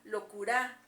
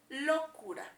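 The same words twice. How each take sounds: First: The stress is on the last syllable. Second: The stress is on the first syllable. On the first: "En la A" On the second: "Si creemos que está en la O"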